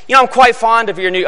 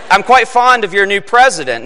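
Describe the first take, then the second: First: Put-on a quick, abandoned stab at a British accent; faint, rushed British accent on the quote; half-tried British accent. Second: Said in the usual way. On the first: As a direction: start the line in a hint of a British accent, then drop it. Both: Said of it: "I'm not gonna try to do a British accent".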